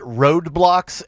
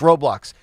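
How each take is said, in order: First: It sounds like road blocks, with a d. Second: It sounds like row blocks, without a d. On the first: The speaker calls it wrong. "I can't even say it correctly. I call it roadblocks" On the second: The speaker calls it right. "my daughter's like, it's Roblox"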